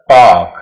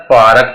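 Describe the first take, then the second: First: "पार्क" as a long paak, falling; silent R. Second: "पार्क" with the r sounded, paa-ruk; wrong pronunciation. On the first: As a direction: drop the r in "पार्क", stretch the aa. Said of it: "आ की आवाज देगा". ("पार्क" में आर खामोश, लंबा आ) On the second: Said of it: "it's not a". ("पार्क" का गलत उच्चारण, आर सुनाई दे) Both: Shown as a demonstration.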